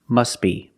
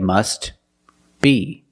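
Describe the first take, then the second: First: The T sound is dropped and the words are linked. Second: The T sound is pronounced before a short pause. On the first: "if you link the words" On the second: "If you separate the words and you pause between words"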